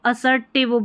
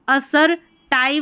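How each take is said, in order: First: The last syllable has a short 'i' vowel. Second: The last syllable has a long 'eye' vowel. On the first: The speaker calls it right. "असर्टिव बोलेंगे" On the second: The speaker calls it wrong. "नहीं बोलेंगे"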